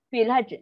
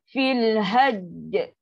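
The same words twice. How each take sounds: First: The final consonant is clipped, releasing a puff of air. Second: The final doubled consonant is held firmly. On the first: "nak cepat, nak gopoh ... kita dah menghilangkan huruf jim" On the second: "contoh yang ni pertama"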